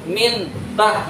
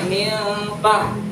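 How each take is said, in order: First: The n is pronounced clearly and distinctly. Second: The n blends into a nasal, hidden sound. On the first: The speaker calls it wrong. "harusnya ikhfa, tapi dibaca izhar" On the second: The speaker calls it right. "Harusnya min tah"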